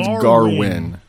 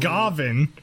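First: The name is said with a W sound. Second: The name is said with a V sound. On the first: "They're going" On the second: "they're not saying Gavin"

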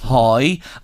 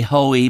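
First: The name sounds like 'hoy', one syllable. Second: The name sounds like 'hoe-ee'. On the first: This is how people in Drogheda say it. "If he was in Drogheda, we'd say hoi" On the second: This is how other people say it. "Other people would say hoey"

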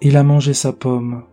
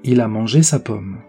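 First: The melody falls throughout, sounding regretful. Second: The melody falls at the end as a plain statement. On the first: It expresses regret. "l'intonation est uniquement descendante et peut faire penser à l'expression d'un regret" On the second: It states a fact. "C'est une phrase déclarative. On la remarque puisque la mélodie descendante indique la fin de la phrase"

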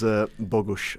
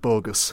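First: The name is said with its Polish pronunciation. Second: The name is said like the English word bogus. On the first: The speaker calls it right. "as it's pronounced apparently" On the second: The speaker calls it wrong. "every Leeds fan pronouncing it Bogus"

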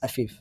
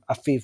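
First: The name is pronounced the English way. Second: The name is pronounced the Arabic way. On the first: "his English name is Afif" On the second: "I pronounced it in Arabic"

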